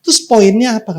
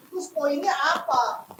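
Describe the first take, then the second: First: Louder and higher, Terus poinnya apa? pressed hard; God's challenge. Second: Much softer and slow, Terus poinnya apa? asked quietly; soft question. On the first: God confronting Jacob, loud demanding question. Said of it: "kata Tuhan". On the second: Preacher voicing a listener's doubt, soft and slow. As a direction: murmur Terus poinnya apa? as a puzzled thought. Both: Acted.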